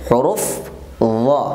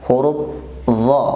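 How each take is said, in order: Both takes have the same delivery.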